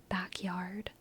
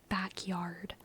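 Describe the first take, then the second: No difference in how they are said.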